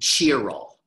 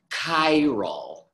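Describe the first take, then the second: First: The word begins with a 'ch' sound. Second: The word begins with a hard 'k' sound. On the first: The speaker calls it wrong. "please do not say chiral" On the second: The speaker calls it right. "The adjective is chiral"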